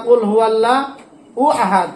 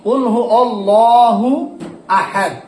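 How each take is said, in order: First: "কুল হু আল্লাহ উ আহাদ" run together fast with a stray উ before আহাদ; common wrong reading. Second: "কুল হু অল্লাহু আহাদ" with অল্লাহু flowing straight into আহাদ, no extra উ; correct reading. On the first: Teacher shows students the mistake of adding উ before আহাদ. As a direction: slip an extra উ in before আহাদ. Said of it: "এরকম একটা শব্দ হয়ে যায় অনেক সময়". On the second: Teacher gives students the correct way after the mistake. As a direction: join অল্লাহু to আহাদ cleanly. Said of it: "আমরা খেয়াল করতে হবে". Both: Shown as a demonstration.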